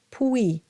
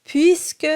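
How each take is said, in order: First: Puis said as a drawn-out English pooey; mock the wrong puis. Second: Puisque bright, high and loud; correct puisque. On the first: Teacher showing the wrong vowel. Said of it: "Sounds like fooey". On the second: Teacher modelling the correct vowel. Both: Shown as a demonstration.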